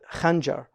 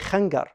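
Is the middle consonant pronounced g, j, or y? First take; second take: j; g. First: The middle consonant sounds like j. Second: The middle consonant sounds like a hard g. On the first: This is the standard form. "like the khanjar will be khanyar" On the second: This is the Egyptian dialect form. "If you go to Egypt, they'll say khangar"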